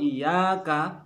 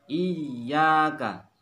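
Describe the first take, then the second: First: The y sound is single and light. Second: The y sound is doubled and pressed. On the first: It turns into a word for sunlight. The speaker calls it wrong. "iyyaka tidak ditekan" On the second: Only to you do we direct worship. The speaker calls it right. "Pada kata iya harus ditekan"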